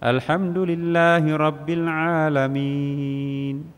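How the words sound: It is recited softly and gently.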